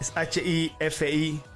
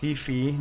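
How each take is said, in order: First: It is spelled out letter by letter. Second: It is said as two short words. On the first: The speaker calls it wrong. "no es H-I-F-I" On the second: The speaker calls it right. "se pronuncia Hi-Fi"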